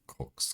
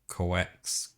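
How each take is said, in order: First: The vowel is said weakly, without emphasis. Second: The vowel is said strongly, with extra emphasis. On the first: The speaker calls it wrong. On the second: The speaker calls it right.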